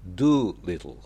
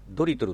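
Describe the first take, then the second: First: It is said with English sounds and an L. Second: It is said with Japanese syllables and sounds. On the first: The speaker calls it right. "L が入るからちょっと発音が難しいです" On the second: The speaker calls it wrong. "ドリトルって読むんじゃなくて"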